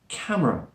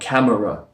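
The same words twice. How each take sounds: First: The middle vowel is very slightly heard. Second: The middle vowel is fully pronounced. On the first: "There's a very slight schwa sound in there" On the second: "Don't say the full sound like camera"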